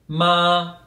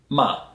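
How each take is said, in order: First: The pitch stays high and level. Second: The pitch drops sharply from high to low. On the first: It means mother. "so a very high pitch" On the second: It means curse. "if you say it in a falling tone"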